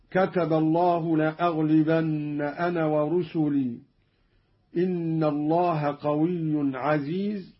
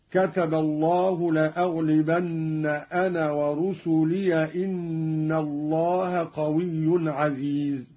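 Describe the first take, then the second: First: Said in the usual way. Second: ورسلي recited "wa-rusuliya", running straight on into إن; no pause after ورسلي, its ya voiced with fatha; fatha on ya, joined. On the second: Shown as a demonstration. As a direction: link ورسلي to the next word with a final -ya. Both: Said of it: "بفتح ياء ورسلي وصلا".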